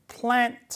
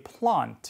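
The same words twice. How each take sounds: First: It is said in an American accent. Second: It is said in a British accent. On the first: "plant 아니고" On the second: "영국식으로 plant 이렇게 발음이 되죠"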